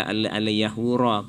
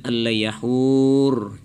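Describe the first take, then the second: First: Al-yahura with a final A sounded; wrong pausal ending. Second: Al-yahur closed on R, long HUR; pausal ending. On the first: Judge showing the forbidden stop, al-yahura with its last A. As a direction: say al-yahura, voicing the vowel after R. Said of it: "nggak boleh". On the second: Judge showing how to stop on al-yahur, ending long without a vowel. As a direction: chant al-yahur slowly, drawn out, stopping on the R. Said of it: "kalau kita wakaf". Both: Shown as a demonstration.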